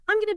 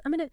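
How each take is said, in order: First: Said in the usual way. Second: "I'm gonna" run together, g swallowed; blended connected speech. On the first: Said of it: "native speakers blend words together". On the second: Shown as a demonstration. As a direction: slur "I'm gonna" into one quick word, like "I'munna".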